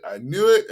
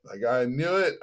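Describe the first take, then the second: First: "knew" punched higher and louder in "I knew it"; I KNEW it, rising emphasis; stress on knew. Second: Said in the usual way. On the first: Real, not acted. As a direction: hit the word knew hard. Repeats with force.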